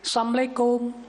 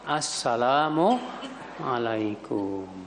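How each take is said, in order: First: The syllable 'la' is left out of the greeting. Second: The syllable 'la' is clearly said in the greeting. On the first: It wishes death upon the listener. The speaker calls it wrong. "Ada lagi yang salamnya gini" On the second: It wishes peace upon the listener. The speaker calls it right. "ini jadi mengucapkan salamnya yang benar"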